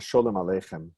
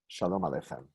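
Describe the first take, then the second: First: The name is said with a Yiddish pronunciation. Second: The name is said with a Hebrew pronunciation. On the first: "That was a Yiddish pronunciation" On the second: "it says Shalom Aleichem"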